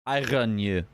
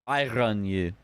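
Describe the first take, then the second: Both takes have the same delivery.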